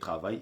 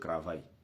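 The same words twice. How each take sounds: First: The word begins with a clear T sound. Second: The word begins with a different first sound. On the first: The speaker calls it right. "il faut mettre T, il faut prononcer travail" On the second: The speaker calls it wrong. "ils disent travail"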